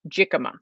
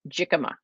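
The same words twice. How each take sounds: First: The consonants are in order: 'jicama'. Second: The consonants are in order: 'jicama'.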